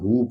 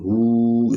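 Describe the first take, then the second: First: The vowel is cut short. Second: The vowel is drawn out long. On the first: The speaker calls it wrong. "ये अक्सर जो है दोस्त गलती करते हैं" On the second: The speaker calls it right. "इसको लंबा करना है"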